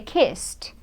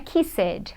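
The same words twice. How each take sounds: First: The final sound is voiceless, like a T. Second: The final sound is voiced, not a T. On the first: The speaker calls it right. "É kissed" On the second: The speaker calls it wrong. "Não é kissed"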